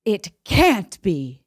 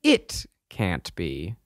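First: "can't" pushed, slow and drawn out; stress on can't. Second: "It" leaned on, slow and low; stress on It. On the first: Trying emphasis on a different word, stress on "can't". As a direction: hit "can't" in disbelief. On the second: Trying emphasis on a different word, stress on "It". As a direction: linger on "It" as if in shock. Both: Shown as a demonstration. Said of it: "Put the emphasis on the".

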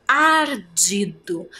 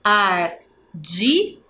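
First: Ardido stretched by syllable; slow syllables. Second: Ardido stretched by syllable, rising; slow syllables. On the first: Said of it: "Ardido tem quantas sílabas". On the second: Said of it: "tem três sílabas". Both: Shown as a demonstration. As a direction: count it out slowly. (devagar, sílaba por sílaba)

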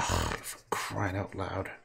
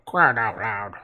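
First: Said in the usual way. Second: Deaf old man's voice, put on; deaf grandfather. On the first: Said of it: "That's my grandfather". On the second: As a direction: imitate grandpa who can't hear himself. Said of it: "deaf man voice".

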